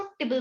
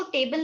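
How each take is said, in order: First: टिबल as "tih-bul"; reduced table vowel. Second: टेबल as "TAY-bul"; full table vowel. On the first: Teacher gives the rule, टिबल with short "i". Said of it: "उसको टिबल बोलोगे". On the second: Teacher shows what not to say, टेबल with full "ay". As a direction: say टेबल with a long "ay". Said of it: "उसको टेबल नहीं बोलोगे". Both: Shown as a demonstration.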